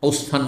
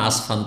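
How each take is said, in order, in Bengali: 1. প্রথম স্বরধ্বনিটি একটি গোলাকার 'o' ধ্বনি। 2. প্রথম স্বরধ্বনিটি একটি খোলা 'a' ধ্বনি। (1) "ওসফান না আসফান" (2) "ওসফান না আসফান"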